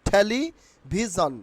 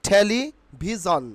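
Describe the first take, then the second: No difference in how they are said.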